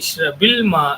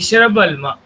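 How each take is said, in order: First: An i vowel links ishrab to the next word. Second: The b of ishrab ends without a vowel. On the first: The speaker calls it right. "இந்த சுக்குன்ல இப்போ கஸ்ரா வந்துடும்" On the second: The speaker calls it wrong. "இஷ்ரப் சுக்குன் இருக்கு. அல்மால லாம்ல சுக்குன் இருக்கு"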